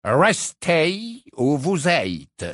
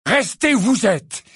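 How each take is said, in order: First: Very slow, drawn out, stress on vous; slow haughty portrait. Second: Much higher, louder, spitting restez; angry shout. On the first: Portrait delivering Dumbledore's order, slow and haughty. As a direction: spell out each word with condescension. Phineas relays the message. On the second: Harry throwing Dumbledore's order back, shouting. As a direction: hurl the order back furiously. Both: Acted.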